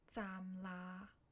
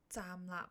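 First: The second syllable is drawn out with no stop. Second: The second syllable is short and ends in a stop. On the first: The speaker calls it wrong. "假如你拖长了来说，没有up 的那一下呢" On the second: The speaker calls it right. "所以广东话站立也是啦"

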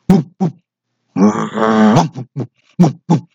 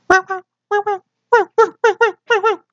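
First: A low-pitched big dog bark. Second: A high-pitched small dog bark.

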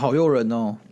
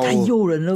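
First: It is said flatly, without excitement. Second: It is said with lively excitement.

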